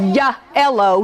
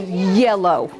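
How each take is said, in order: First: It is broken into a 'ya' part and 'ello'. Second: It is said smoothly as one connected word. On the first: The speaker calls it wrong. "you don't say ya ello" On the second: The speaker calls it right. "you say yellow"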